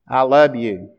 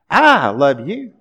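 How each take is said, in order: First: It is said flatly, with little feeling. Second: It is said warmly, with expressive feeling. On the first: Only the bare words carry the message. "the content of words in spoken communication is only 7% of communication" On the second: The voice itself carries the feeling. "The tone of voice is important"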